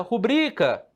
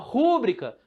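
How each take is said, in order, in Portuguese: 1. A tônica está na segunda sílaba, bri. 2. A tônica está na primeira sílaba, ru. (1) "No bri" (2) "a força não tá aqui também, senão era proparoxítona"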